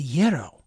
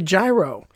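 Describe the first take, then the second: First: The word has the Greek pronunciation. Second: The word has the regional Pittsburgh pronunciation. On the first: This is the original pronunciation that others insist on. "because that's the Greek pronunciation" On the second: This is how locals in one region say it. "we call it a gyro. That apparently was a regional thing here"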